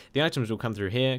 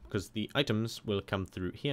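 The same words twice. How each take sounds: First: Said in the usual way. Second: Flat, even robot voice. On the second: Real, not acted. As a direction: talk like a robot. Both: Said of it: "I'm talking like a robot".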